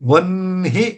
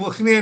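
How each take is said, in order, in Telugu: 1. ఈ పదం 'v' హల్లు శబ్దంతో మొదలవుతుంది. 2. ఈ పదం 'o' అచ్చు శబ్దంతో మొదలవుతుంది. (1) "వన్హి అనాలి" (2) "ఉచ్చారణలో తప్పు పలుకుతా ఉంటారు"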